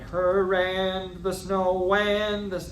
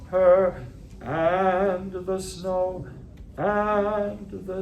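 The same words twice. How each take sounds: First: Each 'and' is linked smoothly to the word before. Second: Each 'and' starts with a sharp glottal catch. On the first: The speaker calls it wrong. "I don't want" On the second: The speaker calls it right. "it means a glottal attack"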